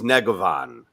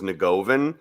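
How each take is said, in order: First: The name is said with a Croatian-style pronunciation. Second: The name is said with an Americanized pronunciation. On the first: "your name is Negovan" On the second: "the Americanized version is Nagovan"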